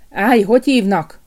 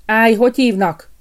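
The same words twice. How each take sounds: First: Louder, gruff guard's growl; angry gatekeeper's growl; growled challenge. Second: Loud, higher challenge at the gate; sharp guard's halt; gatekeeper's challenge. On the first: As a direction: growl it at the intruder. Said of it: "mordult rá a kapus". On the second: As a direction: stop him at the gate with a loud call. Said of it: "állította meg a kapus". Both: A narrator's reading.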